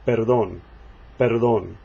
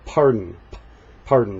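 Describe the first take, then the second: First: Perdón with no air out on the p; Spanish unaspirated p. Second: Pardon with a strong puff of air on the p; puffed English p. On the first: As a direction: keep the p of perdón dry, no puff. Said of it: "No air comes out on the P". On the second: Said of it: "so we say ... we puff it". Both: Shown as a demonstration.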